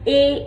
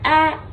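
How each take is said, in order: First: The vowel is said as a long sound. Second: The vowel is said as a short sound. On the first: "Long vowel says A" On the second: "short vowels is A"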